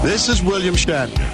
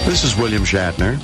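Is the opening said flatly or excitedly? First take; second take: excitedly; flatly. First: The opening is said with more excitement. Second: The opening is said in a plain, calm way.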